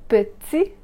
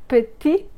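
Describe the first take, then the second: No difference in how they are said.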